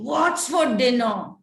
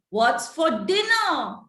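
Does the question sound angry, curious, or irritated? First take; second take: angry; curious. First: The question is asked in an angry tone. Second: The question is asked in a curious tone. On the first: "How will I ask angrily?" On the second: "How will I ask that curiously?"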